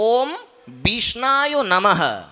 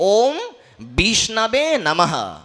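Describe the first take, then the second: First: The middle word ends in an 'aya' sound. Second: The middle word ends in an 'ave' sound. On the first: The speaker calls it wrong. "একজন মূর্খ ব্যক্তি উচ্চারণ করে" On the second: The speaker calls it right. "সঠিক উচ্চারণ হচ্ছে"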